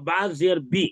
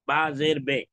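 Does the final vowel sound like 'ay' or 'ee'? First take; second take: ee; ay. First: The final vowel is a long 'ee' sound. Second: The final vowel is a mid 'ay' sound. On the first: "ये हो गया मजहूल मारूफ।" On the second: "तो ये हो गया मजहूल।"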